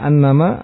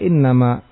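First: The word begins with an 'a' vowel. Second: The word begins with an 'i' vowel. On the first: The clause is the predicate of an omitted subject. "yang menfathah hamzahnya" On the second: The sentence is already complete without anything supplied. "membacanya dengan apa? Kasrah innama"

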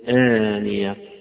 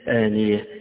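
First: The final vowel is plain, without tilting. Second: The final vowel is tilted toward an e sound.

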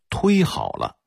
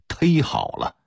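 First: It is said in standard Mandarin pronunciation. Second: It is said in Beijing local pronunciation. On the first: "被北京音系给招安了，发音规划为忒好了" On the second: "虽然也是北京土音"

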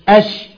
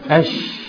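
First: The sh sound is voiced. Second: The sh sound is only breath. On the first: "لو صوت كتبقى أش أش" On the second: "لو نفس أش"

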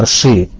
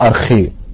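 First: The middle consonant sounds like sh. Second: The middle consonant sounds like kh. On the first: "ده نطق الكلمة اليونانية بالمودرن جريك" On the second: "كانشنت جريك او كون جريك بتنطق ارخي"

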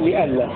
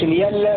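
First: The middle sound is a glottal stop. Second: The middle sound is a y sound. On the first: "بهمزة محققة" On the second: "يرويها ورش ليلا بالياء"

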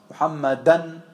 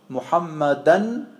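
The two takes are said the same way.

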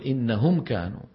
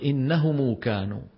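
First: No vowel follows the m. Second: A long u vowel follows the m. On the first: "ومنهم من لا يتبعها بواو" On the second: "منهم من ميم الجمع يتبعها بواو"

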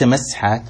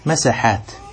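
First: The s-sound is silent with no vowel after it. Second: The s-sound is followed by a short a vowel. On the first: The speaker calls it wrong. "ليس مسحات" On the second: The speaker calls it right. "مساحات بفتح السين"

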